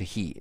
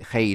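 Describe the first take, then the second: First: The vowel sounds like the one in 'see'. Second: The vowel sounds like the one in 'day'. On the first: This is the modern pronunciation. "now they change he hey to he" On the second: This is the older pronunciation. "in those days he sounds like hey"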